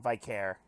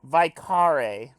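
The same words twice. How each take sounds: First: "Vicare" said vy-CARE, softly falling; settling on a pronunciation. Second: "Vicare" said vy-KAH-ray, firmly; trying a pronunciation. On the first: Player settling what to call him, "Vicare" as vy-CARE. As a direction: say "Vicare" quietly in two syllables, ending like care. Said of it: "we'll just call him". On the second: Player correcting the character's name, "Vicare" as vy-KAH-ray. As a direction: say "Vicare" in three syllables with a final ray. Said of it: "I don't know how to pronounce". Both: Shown as a demonstration.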